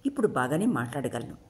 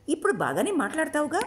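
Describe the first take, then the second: First: Said in the usual way. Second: ఇప్పుడు lifted high, teasing rising question; Shabari cutting in. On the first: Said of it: "వాళ్ళ మధ్య చాలా కాలం". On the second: A narrator's reading. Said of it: "మధ్యలో అందుకొని అడిగింది శబరి". (మధ్యలో అందుకొని ఎత్తైన స్వరంతో ప్రశ్న)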